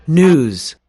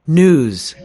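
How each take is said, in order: Both takes have the same delivery.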